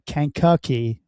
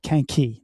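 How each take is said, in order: First: Every syllable of the name is said. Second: One syllable of the name is dropped. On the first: This is how it is supposed to be said. "like the way it's supposed to say Kankakee" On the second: This is how locals say it. "they skip a syllable of it when they say it"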